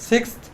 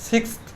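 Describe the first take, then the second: The two takes are said the same way.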